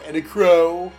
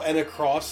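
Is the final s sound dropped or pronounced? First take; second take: dropped; pronounced. First: The name ends without any s sound. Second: The name ends with a clear s sound. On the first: The speaker calls it wrong. "even though it's spelled with an S" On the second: The speaker calls it right. "in Japanese they say Enacross"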